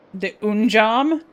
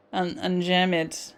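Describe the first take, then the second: First: "unjam" as "oon-jahm", slow and rising; puzzled mispronunciation. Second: Said in the usual way. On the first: Real, not acted. Reader tripping over "unjam", puzzled "oon-jahm". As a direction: question "unjam" loudly, saying "oon-jahm". Stumbles over word, then corrects it.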